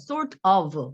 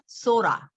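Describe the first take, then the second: First: Both words are said fully and separately. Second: The words merge into one word, sorta.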